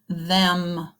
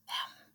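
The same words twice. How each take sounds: First: Said in the usual way. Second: Very soft whispered single word. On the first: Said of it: "Repeat it again". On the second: Shown as a demonstration. Teacher showing children a whisper voice, whispered. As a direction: whisper it, barely audible. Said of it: "Say it in a whisper voice".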